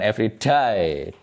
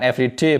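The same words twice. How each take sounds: First: The last word has the vowel of 'die'. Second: The last word has the vowel of 'day'. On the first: Each time someone dies. The speaker calls it wrong. "bukan every day. Day itu artinya mate" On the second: Each day. The speaker calls it right. "Ucapkan every day"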